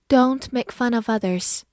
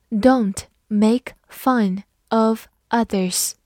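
First: Said in the usual way. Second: Each word slow and drawn out; careful slow reading. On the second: Shown as a demonstration. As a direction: read it slowly for learners. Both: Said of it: "好，慢读一遍。".

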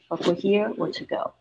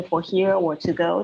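First: "here" held up, then "to go" falling; correct falling intonation. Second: "for here or to go" without the final fall; wrong rising intonation. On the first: Teacher showing how two options are said, falling intonation. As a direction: drop the tune on "to go". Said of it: "两个选项的时候是这样子说". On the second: Teacher showing students the mistake, wrong rising intonation. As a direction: leave "to go" hanging upward like a yes-no question. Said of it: "就是错误的语调". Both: Shown as a demonstration.

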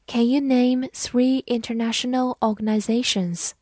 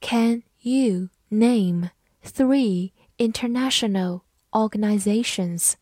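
First: Said in the usual way. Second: Slow, careful word-by-word reading; deliberate model reading. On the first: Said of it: "慢读一遍". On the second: Shown as a demonstration. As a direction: read it slowly for learners. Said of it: "好，慢读一遍".

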